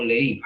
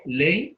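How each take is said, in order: First: "leí" in two slow syllables, le-Í; stress on I. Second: "Ley" in one gliding syllable, strong e; stress on E. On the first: Teacher quizzing students on the diphthong, slow "leí" stressed on í. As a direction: rise onto a strong í in "leí". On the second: Teacher quizzing students on the diphthong, slow "Ley" stressed on e. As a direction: stretch "Ley" slightly, keeping the i weak. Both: Shown as a demonstration. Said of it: "¿Quién tiene el diptongo?".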